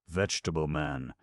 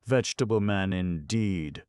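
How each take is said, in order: First: Said in the usual way. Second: Louder, higher scornful roar. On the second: Acted. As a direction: roar the words in contempt. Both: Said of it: "roared Irashi".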